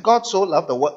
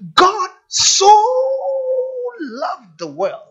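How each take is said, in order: First: It is read quickly, running over the words. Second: It is read slowly, dwelling on the words.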